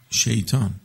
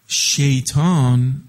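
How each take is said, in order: First: Said in the usual way. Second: Slow, loud stretched Satan; drawn out name. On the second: Acted. Preacher stretching the name before the crowd.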